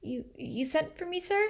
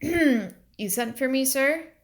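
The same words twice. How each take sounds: First: Small, hesitant, a little higher; nervous girl squeaking out the question; timid squeaky voice. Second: Slow, higher mocking echo of the girl's timid question; slow mocking imitation of a timid girl; mimicking Liddy. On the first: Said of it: "she squeaked". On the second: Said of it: "Her exact words". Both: A narrator's reading.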